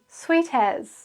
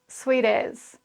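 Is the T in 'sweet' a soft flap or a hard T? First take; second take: hard T; flap. First: The T is said as a clear hard T. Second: The T sounds like a quick R-like tap. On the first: The speaker calls it wrong. "You won't hear anybody saying sweet as. It's just not right" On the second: The speaker calls it right. "It's actually a R sound"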